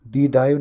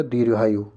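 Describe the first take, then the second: First: दीर्घायु as dee-dhaayu, r dropped; teacher showing faulty dee-dhaayu for दीर्घायु; wrong pronunciation. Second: दीर्घायु with r and gh, deer-ghaayu; teacher modelling deer-ghaayu for दीर्घायु; correct pronunciation. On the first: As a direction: swap gh for dh in दीर्घायु. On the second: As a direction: sound the r in दीर्घायु. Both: Shown as a demonstration. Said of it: "दीर्घायु नहीं होता".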